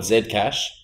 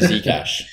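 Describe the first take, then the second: First: The name is said in a non-American way. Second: The name is said in the American way. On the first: This is how the speaker normally says it. "I actually do call it Zcash" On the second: Americans understand it this way. "So now I just say Zcash"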